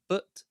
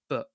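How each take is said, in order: First: The word ends with a clearly released T. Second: The word ends with a glottal stop. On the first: "rather than saying but" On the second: "we say but ... This is known as a glottal stop"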